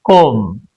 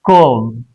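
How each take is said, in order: Both takes have the same delivery.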